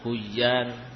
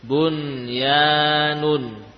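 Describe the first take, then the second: First: The n sound merges into a doubled y. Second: The n sound is pronounced clearly before y. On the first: The speaker calls it wrong. "kalau dibaca idgham, ya, misalkan huyan, maka akan tersamar kalimat aslinya" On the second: The speaker calls it right. "Nun dibaca idhar atau idgham? Idhar"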